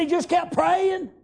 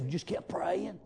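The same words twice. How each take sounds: First: High, slow shout on kept. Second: Unvoiced whisper of the servant's answer. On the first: Acted. A servant answering Jezebel again, now shouting. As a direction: bellow it out with preaching fire. Same reply repeated, shouted. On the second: A servant answering Jezebel's question in a whisper. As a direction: hush it like a secret.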